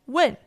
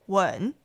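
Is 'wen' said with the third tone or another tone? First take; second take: another tone; third tone. First: The syllable is said without the third tone. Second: The syllable is said with the third tone. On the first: It means to ask. "to ask" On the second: It means to kiss. "with the third tone, means to kiss"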